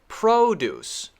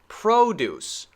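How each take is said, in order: First: The stress is on the first syllable. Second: The stress is on the first syllable.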